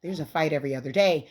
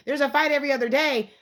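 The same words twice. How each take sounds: First: Said in the usual way. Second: Outraged emphasis on fight; emphatic repeat. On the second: Real, not acted. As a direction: repeat it higher and louder, punching fight. Repeating complaint about fights.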